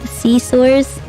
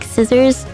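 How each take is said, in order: First: The first syllable has a long 'see' vowel. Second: The first syllable has a short 'sih' vowel. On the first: "My mom always calls it" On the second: "like scissors"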